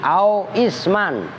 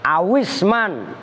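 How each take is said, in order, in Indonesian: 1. Kedua kata itu diucapkan terpisah dengan jeda. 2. Kedua kata itu menyatu tanpa jeda. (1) "Kalau dibaca putus-putus" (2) "kalau dibaca langsung"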